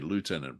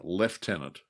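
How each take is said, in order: First: It is said with a North American pronunciation. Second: It is said with an Australian military pronunciation. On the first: "you North Americans would say" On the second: "my father would insist, because he was in the Australian Air Force, on saying"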